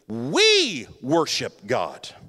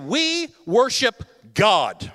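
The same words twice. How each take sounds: First: The stress falls on the word we. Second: The stress falls on the word God. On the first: Worship is done together in unity. "And now listen to this" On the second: God alone is the focus of worship. "listen to the emphasis"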